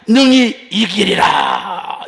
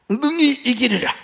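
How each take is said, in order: First: Slow, loud triumphant proclamation; proclaiming shout. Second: Said in the usual way. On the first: Retold or imitated. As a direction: cry it out like a victorious declaration. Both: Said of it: "이렇게 선포했습니다".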